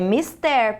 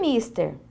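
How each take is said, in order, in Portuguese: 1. A tônica está na última sílaba. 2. A tônica está na primeira sílaba. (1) "mister é uma palavra oxítona" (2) "A maioria das pessoas coloca um acento agudo aqui no i"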